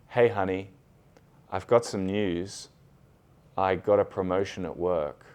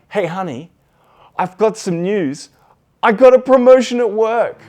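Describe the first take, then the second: First: It is said flat, with low energy. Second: It is said excitedly, with high energy.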